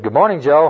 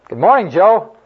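First: The greeting is said a little louder. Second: The greeting is shouted loudly. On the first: "a little bit louder" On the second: "so I shouted it"

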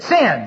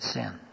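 First: It is said loudly. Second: It is said quietly.

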